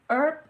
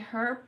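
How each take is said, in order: First: It uses a non-local pronunciation. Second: It uses the local Australian pronunciation. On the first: The speaker calls it wrong. "like I say, um, herb" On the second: The speaker calls it right. "but people here say herb"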